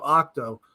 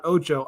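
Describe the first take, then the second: First: OCTO with a hard k-t in the middle; "octo", with "kt" replacing the Spanish "ch"; corrected to octo. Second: OCHO with a Spanish "ch" in the middle; "ocho", the Spanish word for eight. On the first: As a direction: say "octo" as ock-toe. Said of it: "Not ocho". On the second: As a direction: say "ocho" as oh-cho. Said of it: "I wanna go to Spanish". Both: Shown as a demonstration.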